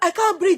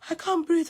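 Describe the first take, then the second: First: It is said loudly and with strength. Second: It is said weakly, with a sigh.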